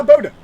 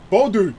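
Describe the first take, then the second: First: "Bode" ending in a weak "duh"; botched pronunciation. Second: "Bodu" ending in a clear "oo"; phonetic pronunciation. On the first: Streamer trying a Norwegian name, botched as "Bode", BOH-duh. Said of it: "sorry for butchering your beautiful language". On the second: Streamer following phonetic help, "Bodu" sounded out as BOH-doo. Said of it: "If you can do it phonetically". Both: Shown as a demonstration.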